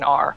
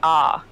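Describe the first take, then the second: First: The R is a strong, rolled American sound. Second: The R is soft, like an open vowel. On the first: "very very American R" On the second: "whereas Australians say R"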